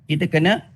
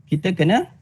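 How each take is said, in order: Both takes have the same delivery.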